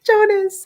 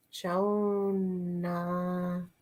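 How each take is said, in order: First: Jonas shouted much higher and louder, the s at the end clear; correcting the name. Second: Jonah said softly as Jonah, with no final s; mistaken name. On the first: Remembering the hero's name, blurts a loud high Jonas. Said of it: "not Jonah". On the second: Talking about The Giver, softly says the name wrong as Jonah. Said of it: "It's Jonas, not Jonah". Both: Real, not acted.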